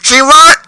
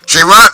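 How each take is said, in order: First: It is said in Sayori's character voice. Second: It is said in a voice not Sayori's.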